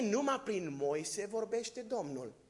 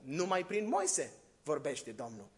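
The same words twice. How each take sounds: First: It is said as a question. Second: It is said as a statement. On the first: It doubts that God speaks only through Moses. "ce, numai prin Moise vorbește Domnul?" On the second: It claims that God speaks only through Moses. "Dacă s-ar schimba semnul întrebării, ar fi altfel"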